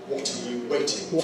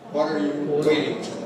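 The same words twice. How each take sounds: First: The t in waiting is a clear t. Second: The t in waiting is a voiced flap. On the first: "British English. No T voicing" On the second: "What happens in American English? ... T voicing"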